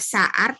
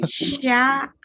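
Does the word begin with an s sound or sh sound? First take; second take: s; sh. First: The word begins with a plain s sound. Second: The word begins with an sh sound. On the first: The speaker calls it wrong. "jangan baca sa'ar" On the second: The speaker calls it right. "tapi sya'ar"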